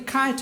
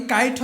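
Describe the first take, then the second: First: "খাইট" opening on a strongly aspirated k. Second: "কাইট" with no puff of air after the k; unaspirated K. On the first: Teacher offers students a choice, "খাইট" with aspirated k. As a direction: say "খাইট" with a breath-puffed kh. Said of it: "নাকি খাইট হবে". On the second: Teacher offers students a choice, "কাইট" with unaspirated k. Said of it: "তাহলে কি কাইট হবে নাকি খাইট হবে". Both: Shown as a demonstration.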